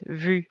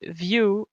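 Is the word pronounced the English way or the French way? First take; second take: French; English. First: It is said with a French vowel, vu. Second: It is said like the English word view. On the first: The speaker calls it right. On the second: The speaker calls it wrong.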